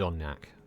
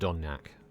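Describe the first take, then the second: First: The name is said as Donyak. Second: The name is said as Donyak.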